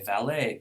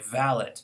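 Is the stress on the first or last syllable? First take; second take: last; first. First: The stress is on the last syllable. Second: The stress is on the first syllable. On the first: This is the American way, keeping the French pattern. "Americans are fine to say valet" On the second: This is the British way, using the native English pattern. "apply their native English stress pattern"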